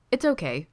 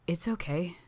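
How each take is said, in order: First: Light reassurance with a smile; smiling. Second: Soft, slightly raised breathy reassurance. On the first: Sidney reassures Gino about the food, smiling. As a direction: say it easily, through a smile. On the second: Sidney forgives Gino's touch, breathy. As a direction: let it out on a breath, a little higher. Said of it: "voice coming out breathy". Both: A narrator's reading.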